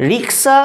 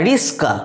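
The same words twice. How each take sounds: First: Said in the usual way. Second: রিস্কা with the s sounded before the k; swapped consonants. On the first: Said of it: "তারা প্রথমে ক বলছে". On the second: Shown as a demonstration. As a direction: say রিস্কা as "ris-ka". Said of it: "উচ্চারণ বিকৃত করে রিস্কা বলছে". (আগে স, পরে ক দিয়ে বিকৃত রিস্কা)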